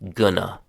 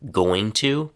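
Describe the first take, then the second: First: The words blend into one short reduced word. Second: Both words are said fully and separately.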